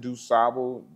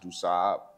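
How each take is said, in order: First: The name is said the common American way. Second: The name is said the Haitian French way. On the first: This is how most locals say it. The speaker calls it wrong. "We mostly pronounce it Dusable" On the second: This is how Haitians insist it is said. The speaker calls it right. "The Haitians will tell you that it's pronounced Dusab"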